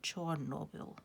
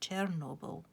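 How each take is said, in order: First: The name is said the Ukrainian way. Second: The name is said the Russian way. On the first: "the Ukrainians say Chornobyl" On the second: "The Russians say Chernobyl"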